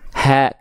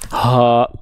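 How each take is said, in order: First: The vowel sounds thin, with a smiling open mouth. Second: The vowel sounds thick and heavy. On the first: The speaker calls it right. "Tetap dibuka mulutnya sambil seolah tersenyum" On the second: The speaker calls it wrong. "jangan sampai begini"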